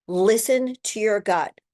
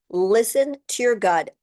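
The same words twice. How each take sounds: The two takes are said the same way.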